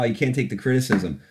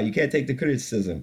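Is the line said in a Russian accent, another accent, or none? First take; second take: none; another accent. First: It is spoken in the speaker's normal accent. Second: It is spoken with an unclear foreign accent. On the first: "so I'm going to stop doing accents" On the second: "I don't know what that accent was either"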